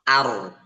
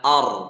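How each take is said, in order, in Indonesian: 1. Vokalnya ringan dan terbuka. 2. Vokalnya berat dan bulat. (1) "Jadi A-nya tipis" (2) "Bukan or"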